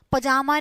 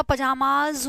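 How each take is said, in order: First: "पजामा" said without the final z; wrong singular form. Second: "पजामाज" said slowly, with a clear final z; slow correct form. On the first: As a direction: say just "पजामा", with no ending. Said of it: "पजामा नहीं होता". ("पजामा" बिना ज़ के, गलत रूप) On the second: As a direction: drag out "पजामाज" and finish on the z. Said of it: "पजामाज होता है". (धीरे से "पजामाज", अंत में साफ़ ज़) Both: Shown as a demonstration.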